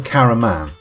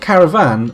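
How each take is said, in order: First: The third consonant is an M sound. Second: The third consonant is a V sound. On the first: The speaker calls it wrong. "mispronouncing caravan" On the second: The speaker calls it right. "It's of course a caravan"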